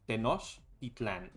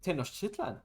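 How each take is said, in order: First: It is said with a Spanish or Nahuatl pronunciation. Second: It is said with an American English pronunciation. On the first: The speaker calls it right. "but it's Tenochtitlan" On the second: The speaker calls it wrong. "how the the Americans say Tenochtitlan"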